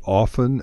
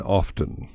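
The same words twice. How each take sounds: First: Often said OFF-en, no t; silent-t pronunciation. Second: Often said OFF-ten, with the t; sounded-t pronunciation. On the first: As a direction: drop the t in often. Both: Shown as a demonstration. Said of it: "both pronunciations are acceptable".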